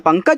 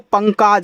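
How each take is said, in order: First: The second syllable has a short 'a' vowel. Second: The second syllable has a long 'aa' vowel. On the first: The speaker calls it right. "का पे मात्रा मुझे नहीं लगाना है" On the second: The speaker calls it wrong. "के से का, ए से आ का मात्रा"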